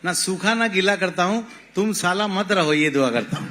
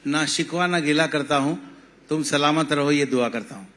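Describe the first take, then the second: First: It is said in a mock Bengali accent. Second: It is said in a standard Hindi-Urdu accent.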